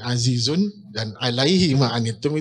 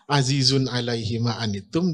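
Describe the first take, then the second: First: The pause comes after the word azizun. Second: The pause comes after the word alaihi. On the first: He is mighty, and he bears all your burdens. "Bisa juga azizun dan alaihi ma'anittum" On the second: It is heavy for him, whatever befalls you. "Berat baginya ma'anittum apapun yang menimpa kalian"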